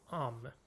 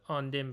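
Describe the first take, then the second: First: It is said merged into one word. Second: It is said as two separate words. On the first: "حالت ادغام شدن" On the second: "به صورت جداگونه"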